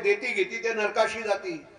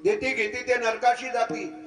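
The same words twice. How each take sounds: No difference in how they are said.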